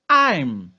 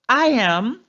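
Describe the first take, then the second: First: The words are shortened into one syllable. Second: Two separate full words are said.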